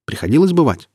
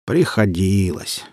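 First: Eager question, Приходилось lifted high then falling; curious question. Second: Slow, drawn-out Приходилось; lazy reply. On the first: Acted. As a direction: pitch leaping up on Приходилось. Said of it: "Это наша столица. Приходилось бывать". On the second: A narrator's reading. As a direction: answer Приходилось lazily, stretching it out. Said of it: "лениво откликнулся Вульфер".

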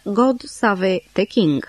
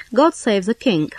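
First: "God save the king" with "save" in two syllables, sa-VÉ; French-style mispronunciation. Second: Said in the usual way. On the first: Shown as a demonstration. Dictionary reader quoting Béranger's rhyme, "God save the king" said as "God savé te king". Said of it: "În versurile lui Béranger se pronunță". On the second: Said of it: "se pronunță".

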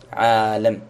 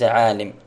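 First: عالم said ʕaalam, with an open a after the l; عالم with the lam open, ʕaalam; عالم pronounced with fatha, ʕaalam. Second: عالم said ʕaalim, with an i after the l; عالم with the lam broken, ʕaalim; عالم pronounced with kasra, ʕaalim. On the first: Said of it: "بفتح اللام ولا بكسرها؟". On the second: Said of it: "وليس عالم". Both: Shown as a demonstration.

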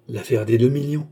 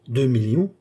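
First: Firm weight on "deux millions"; emphatic exclamation. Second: "millions" lifted into a rising question; questioning echo. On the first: Beausire proclaims the deal to his associates, emphatic. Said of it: "s'écria Beausire avec emphase". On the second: Associates query Beausire's figure, questioning echo. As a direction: echo "millions" back as a question, pitch climbing. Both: A narrator's reading.

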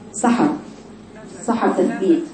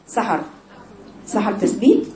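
The two takes are said the same way.

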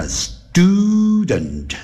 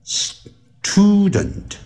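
First: "student" with the T after S softened to D, sdoo-dent; slow "student", unaspirated D sound after the S. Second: "student" with a puffed T after the S, s-tʰoo-dent; aspirated T, mistaken. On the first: Teacher showing the rule after S, "student" as sdudent. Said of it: "那个T要念成". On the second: Teacher showing what not to say, "student" with aspirated T. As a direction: split "student" as S, then a breath-puffed TOO. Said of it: "而不是念成". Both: Shown as a demonstration.

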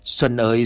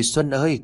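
First: Put-on old father starting to wail his son's name; mournful wail. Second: The same call pitched higher, grief breaking through; father calling his dead son, voice rising; rising wail. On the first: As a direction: call the son's name in sorrow. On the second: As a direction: cry the name again, climbing higher. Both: A narrator's reading. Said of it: "Ông lão gào lên thảm thiết".

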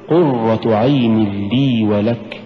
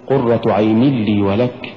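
First: Slow careful "قرة عين لي ولك"; correct recitation. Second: "قرة عين لي ولك" with a pushed, stressed "قرة"; wrong recitation. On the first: Teacher demonstrating the correct reading to students. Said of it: "قل". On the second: Teacher demonstrating the common mistake to students. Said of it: "ولا تقل". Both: Shown as a demonstration.

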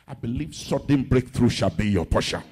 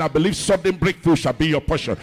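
First: Low-pitched, firm pulpit declaration; confident prayer over the congregation. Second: Loud, forceful pulpit declaration; louder, emphatic blessing with full force; insistent repeated prayer. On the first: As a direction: declare the blessing low and steady. Prayer declaration, first take. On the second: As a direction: hammer it out so the congregation hears. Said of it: "You didn't hear my prayer". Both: Real, not acted.

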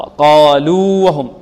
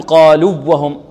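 First: قالوا with a long held u, then وهم clearly apart; correct separation. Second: قالوا وهم with a short u and doubled w; wrong merging. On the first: Teacher correcting the error, long separated vowel. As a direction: stretch the u of قالوا before وهم. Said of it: "خطأ". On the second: Teacher showing what not to say, merged w. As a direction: press قالوا straight into the w of وهم. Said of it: "لا نقول". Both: Shown as a demonstration.

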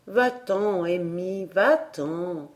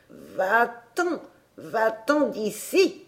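First: Put-on gently sends the child away; a tender oak voice; motherly and caressing. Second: An irritated oak spirit, slow and thin; a spooky tree voice telling him to leave; cross whispering-tree voice. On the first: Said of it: "d'un ton maternel et caressant". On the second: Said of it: "une voix grêle et fâchée". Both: A narrator's reading.

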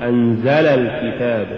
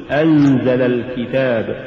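First: أنزل الكتاب with too much stress on the zay; أنزل sounding dual, accent on زَ; overstressed zay. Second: Said in the usual way. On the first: Shown as a demonstration. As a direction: punch the زَ in أنزل. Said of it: "ولا تقل". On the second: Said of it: "قل".

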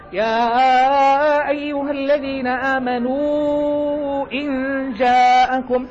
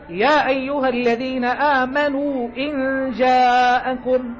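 First: يا stretched long in chanted Quran recitation; long madd. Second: يا recited short, the alif held only two counts; slow Quran recitation with يا kept short, no lengthening; short madd. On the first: Teacher shows students يا أيها with the separated madd lengthened. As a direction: draw out the alif of يا, sung slowly. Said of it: "ويجوز أن تقول". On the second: Teacher shows students يا أيها recited with short madd. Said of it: "يعني يجوز أن تقول". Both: Shown as a demonstration.

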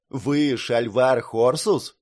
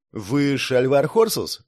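First: To someone hard of hearing. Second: Said in the usual way. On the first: Acted. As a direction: speak up into his ear. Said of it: "чуть громче спросил".

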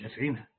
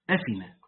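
First: أفعنا with the ayn still sounded; rejected pattern. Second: أفنا as a-fi-na, with no ayn; low أفنا, the middle consonant left out; correct pattern. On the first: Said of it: "لا مش أفعنا". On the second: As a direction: go straight from fi to na in أفنا. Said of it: "صح كده". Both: Shown as a demonstration.

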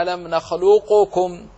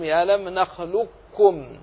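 First: نخلقكم with a separate ق before ك, as nakhluqkum; louder نخلقكم, ق sounded out clearly and released; unmerged, forbidden. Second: نخلقكم with ق merged into a doubled ك; slow نخلقكم, no vowel or bounce between ق and ك; assimilated. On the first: Teacher showing the forbidden reading, نخلقكم with ق fully pronounced. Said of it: "لا يجوز الإظهار بأن تقرأ". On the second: Teacher reciting the required reading, نخلقكم as nakhlukkum. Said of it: "بل تدغم القاف في الكاف". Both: Shown as a demonstration.

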